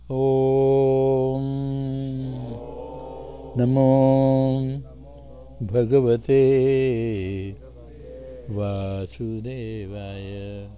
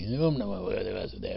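First: The mantra is said slowly and carefully. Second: The mantra is said quickly and hurriedly.

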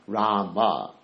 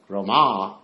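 First: The final vowel is short and soft. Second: The final vowel is long and full. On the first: The speaker calls it right. "the last A in Rama is a very soft A and short" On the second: The speaker calls it wrong. "If you say Rama, that's the goddess of fortune"

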